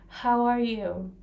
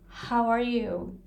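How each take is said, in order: The two takes are said the same way.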